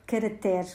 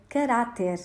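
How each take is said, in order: First: Caractere said as cara-TÉR, last syllable stressed; stress on final TER. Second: Caráter with an open, stressed RÁ. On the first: Language teacher shows listeners the myth, caractere stressed on its end. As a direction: land on the open E at the end of caractere. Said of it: "É um mito". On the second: Language teacher gives listeners the correct form, caráter with open stressed A. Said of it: "com A aberto". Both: Shown as a demonstration.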